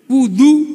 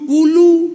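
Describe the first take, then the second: First: The middle consonant is a d sound. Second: The middle consonant is an l sound. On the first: The speaker calls it right. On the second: The speaker calls it wrong.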